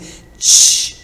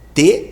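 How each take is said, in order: First: The consonant has a hissing ch-like release. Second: The consonant is a plain, crisp t sound. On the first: "esse T é um som que pode ser escrito com C H, pode ser escrito com X" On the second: "Eu posso fazer T"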